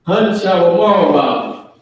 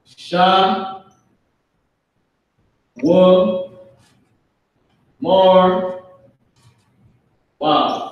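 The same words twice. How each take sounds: First: "Hun, Sha, Wa, Mar, Wa" run together at normal speed; joined up. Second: "Sha, Wa, Mar, Wa" with long pauses between syllables. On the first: Teacher putting the syllables back together for the class. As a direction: blend "Hun, Sha, Wa, Mar, Wa" into one phrase. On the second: Teacher breaking a Hebrew word into syllables for students. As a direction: spell out "Sha" "Wa" "Mar" "Wa" with slow gaps. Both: Shown as a demonstration. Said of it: "meaning they".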